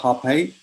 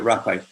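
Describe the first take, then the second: First: It starts with an h-like sound. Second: It starts with a rolled r.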